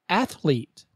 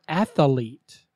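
First: The word has two syllables, like 'ath-lete'. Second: The word has three syllables, like 'ath-a-lete'. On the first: The speaker calls it right. "Say athlete" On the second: The speaker calls it wrong. "not athlete. There is no A in the middle"

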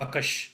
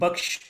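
First: The word is split into two syllables. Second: The word is said as one unsplit syllable. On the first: This is the Gujarati form. "split and uh, pronounced as bakash" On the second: This is the Persian and Urdu form. "this is actually baksh"

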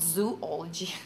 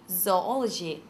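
First: The first syllable sounds like 'zoo'. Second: The first syllable sounds like 'zoh'. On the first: The speaker calls it wrong. "not zoology" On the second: The speaker calls it right. "to sound intelligent, it's zoology"

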